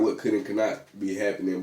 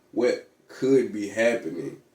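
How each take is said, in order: First: Said in the usual way. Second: Slow down and lean hard on "could"; "could" drawn out and punched for contrast; deliberate, weighty emphasis on "could"; stress on "could". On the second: Real, not acted. Corrects own phrase by contrast.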